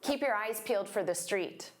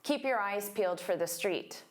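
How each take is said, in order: No difference in how they are said.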